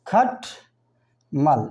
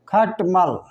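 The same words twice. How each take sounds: First: खटमल said very slowly as खट and मल; syllables split slowly. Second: Said in the usual way. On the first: Shown as a demonstration. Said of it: "एक शब्द है और उच्चारण के दो भाग हैं". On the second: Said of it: "अब देखिए, खटमल है".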